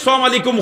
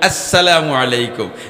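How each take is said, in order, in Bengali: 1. সালামটি শুরু হয় শুরুর 'as' ধ্বনি ছাড়া। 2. সালামটি শুরু হয় শুরুর পূর্ণ 'as' ধ্বনি দিয়ে। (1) "কোনদিন সালাম আলাইকুম হইতাম না" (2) "হইমু আসসালামু আলাইকুম"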